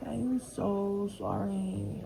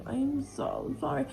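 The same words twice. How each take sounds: First: I am so sorry, dragged out slowly; slow drawn-out apology. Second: I am so sorry, lifted high and eager; higher pleading apology. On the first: Apologising to the friend, dragged out slowly. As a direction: stretch out every word of the apology. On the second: Apologising again to the friend, pitched up and pleading. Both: Retold or imitated. Retelling her apology to him.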